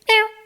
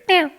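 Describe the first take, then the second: First: The call is pitched higher. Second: The call is pitched lower. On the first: "if they're further away, I'll do a higher pitch meow" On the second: "I say mew, as in M E W"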